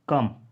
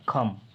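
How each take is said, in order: First: The first k is said without a puff of air. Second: The first k is said with a puff of air. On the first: "कम को क्या बोल देंगे हम" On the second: "जहाँ भी का का उच्चारण आता है वहाँ हमें खा बोलना है"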